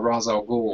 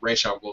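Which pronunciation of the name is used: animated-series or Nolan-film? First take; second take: Nolan-film; animated-series. First: The name is said the Nolan film way. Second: The name is said the animated series way. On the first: "rather than the Nolan one" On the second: "they're using the animated series uh, pronunciation"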